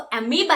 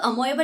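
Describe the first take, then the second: First: It is said in three syllables, a-mee-ba. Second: It is said in four syllables, a-mo-e-ba. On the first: The speaker calls it right. "वो अमीबा है" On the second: The speaker calls it wrong. "अमोएबा नहीं बेटा"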